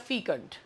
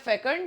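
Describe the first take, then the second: First: The first vowel sounds like 'fee'. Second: The first vowel sounds like 'feh'. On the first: "इसे आप दो तरीके से pronounce कर सकते हैं" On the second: "इसे आप दो तरीके से प्रोनाउंस कर सकते हैं"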